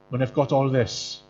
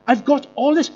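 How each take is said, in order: First: Said in the usual way. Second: Higher, louder mock brag on this; mocking show-off rise; smug boasting. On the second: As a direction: show off what you have, pitch up. Voicing proud modern culture.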